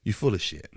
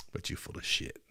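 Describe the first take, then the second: First: Said in the usual way. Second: Unvoiced hissed whisper, very soft. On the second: Real, not acted. Telling the president he's lying, whispered in scorn. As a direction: breathe it out under your breath with contempt. Repeated, whispered then spoken.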